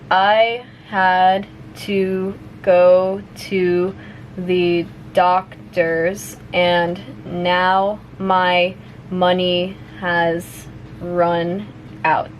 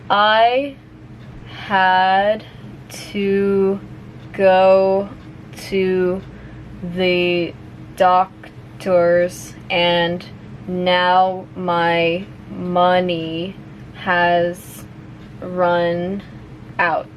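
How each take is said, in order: First: The sentence is spoken at medium speed. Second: The sentence is spoken slowly. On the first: "a little bit faster now" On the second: "I'll say it slowly first"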